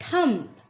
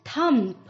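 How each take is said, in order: Both takes have the same delivery.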